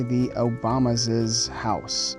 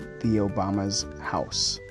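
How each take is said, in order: First: An extra syllable is added to the possessive word. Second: No extra syllable is added to the possessive word. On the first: The speaker calls it wrong. "We don't say" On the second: The speaker calls it right.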